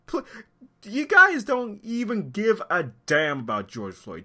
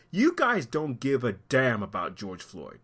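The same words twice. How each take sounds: First: Angry accusation. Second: Said in the usual way. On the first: Real, not acted. Commentator accusing looters of not caring about George Floyd, indignant and high. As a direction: hit it harder, pitch raised in real outrage. Repeats accusation with more force.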